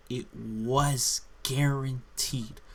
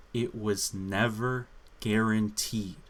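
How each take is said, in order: First: Slow, louder, "was" drawn out and falling; mock the retcon by hitting "was"; stress on was. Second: "never" hit hard and falling; weight the word "never" against the sequel's claim; stress on never. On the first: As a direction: drag out "was" sarcastically. Contrasting sequel's retcon. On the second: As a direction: lean on "never" to make the point. Contrasting first game with sequel. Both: Real, not acted.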